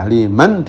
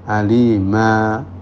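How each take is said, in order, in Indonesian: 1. Kata ini berakhir dengan bunyi n. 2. Kata ini berakhir dengan vokal panjang.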